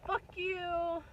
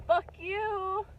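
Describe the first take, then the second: First: High put-on voice of spiteful life; life says fuck you again. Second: High, loud mock snarl as life itself; life says fuck you. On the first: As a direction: toss it off as a mocking jab. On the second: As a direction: spit it out as spiteful life, half laughing. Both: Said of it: "life just has this way of being like".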